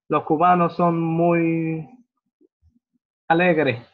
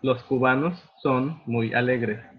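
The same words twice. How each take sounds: First: The final s sounds become a very soft h. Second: The final s sounds are clear hissing s sounds. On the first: "So los cubanos son muy alegres" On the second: "instead of los cubanos son muy alegres"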